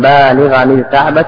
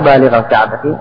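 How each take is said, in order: First: The first word ends with an added n sound. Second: The first word ends with no added n sound. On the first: This is the original, fuller form. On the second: This is the lighter, shortened form.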